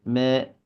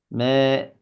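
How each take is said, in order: The two takes are said the same way.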